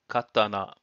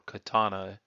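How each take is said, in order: First: It is said with a Japanese pronunciation. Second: It is said with a Western, English-style pronunciation.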